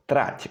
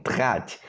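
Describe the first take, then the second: First: Said in the usual way. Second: Trať with a French-style R; childhood mispronunciation. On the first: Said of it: "instead of saying trať". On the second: Shown as a demonstration. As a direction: swap the trill in trať for a throaty R. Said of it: "as I was pronouncing it at that time".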